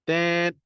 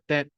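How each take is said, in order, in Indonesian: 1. Suku katanya diucapkan panjang. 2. Suku katanya diucapkan pendek dan cepat. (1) "kalau dua tu kita panjangkan" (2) "Kalau pendek tu kita sekali je"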